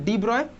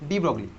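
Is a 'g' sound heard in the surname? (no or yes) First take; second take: no; yes. First: The surname ends in 'broy' with no g sound. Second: The surname is said 'brog-lee' with a g sound. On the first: "pronunciation হচ্ছে তোর ডি ব্রয়" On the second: "কিন্তু আমি তুই ডি ব্রগলি বলবো"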